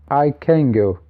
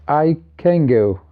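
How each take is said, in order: No difference in how they are said.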